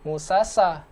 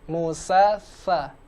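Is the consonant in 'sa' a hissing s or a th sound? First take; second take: hissing s; th sound. First: The consonant is a plain hissing s sound. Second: The consonant is a soft th with tongue at teeth. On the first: The speaker calls it wrong. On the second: The speaker calls it right. "kita naikkan ujung lidah kita ke gigi seri"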